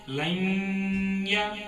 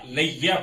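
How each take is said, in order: First: The n sound is kept lightly through the nose. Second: The n sound is fully dropped into the ya. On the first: "नून की आवाज को हमें नाक में घुमाएंगे" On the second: "नून को निकाल निकाल देना चाहिए"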